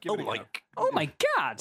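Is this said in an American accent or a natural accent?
American. It is said in a put-on American accent. "should I read it in American accent?"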